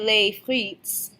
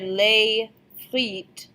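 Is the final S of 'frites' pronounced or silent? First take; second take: pronounced; silent. First: The final S of frites is pronounced. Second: The final S of frites is silent. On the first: The speaker calls it wrong. "We don't say les frites" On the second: The speaker calls it right. "So you hear les frites"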